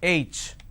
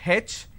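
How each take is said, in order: First: The letter is said in the standard way. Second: The letter is said in a southern Indian way. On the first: The speaker calls it right. "it's H" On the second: The speaker calls it wrong. "in southern part of India, everybody pronounces this letter as H"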